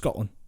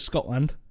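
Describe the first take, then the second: First: The final D sound is barely audible. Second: The final D sound is clearly pronounced. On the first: The speaker calls it right. "the D is barely there at the end" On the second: The speaker calls it wrong. "Nobody says Scotland"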